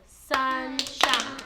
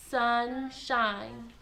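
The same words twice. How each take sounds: First: SUN, SHINE: two loud, slow beats with a gap; clapped-out syllables. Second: SUN and SHINE stretched as two separate word parts; syllable demonstration. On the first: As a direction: punch each part of "sunshine" on a clap. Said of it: "Another way we can do it is by clapping it out". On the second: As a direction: draw out "sunshine", one jaw drop per syllable. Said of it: "every time your jaw moves down, that counts as one syllable". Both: Shown as a demonstration.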